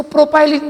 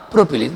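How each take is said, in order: First: प्रोपाइलिन with a "pai" diphthong; प्रोपाइलिन, middle syllable rhyming with "pie"; alternative pronunciation. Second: प्रोपिलीन with a short "pi" syllable; प्रोपिलीन, middle syllable "pi", not "pai"; short-i pronunciation. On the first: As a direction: say प्रोपाइलिन as pro-PIE-lin. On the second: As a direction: say प्रोपिलीन as pro-pi-LEEN. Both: Shown as a demonstration. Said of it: "कुछ लोग इसको प्रोपाइलिन भी बोलते हैं".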